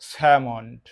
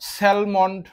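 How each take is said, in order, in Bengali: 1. M-এর আগে কোনো L ধ্বনি উচ্চারিত হয় না। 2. M-এর আগে একটি L ধ্বনি উচ্চারিত হয়। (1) "গ্রহণযোগ্য উচ্চারণ হচ্ছে স্যামন্ড" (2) "অনেকে উচ্চারণ স্যালমন্ড করেন"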